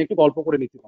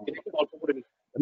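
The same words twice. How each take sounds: First: Said in the usual way. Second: Quiet repeated aside; trailing off softly. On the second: Shown as a demonstration. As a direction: drop to a murmur for the repeat. (নিচু গলায় ধীরে মিলিয়ে যাওয়া) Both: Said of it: "repeats the phrase, trailing off".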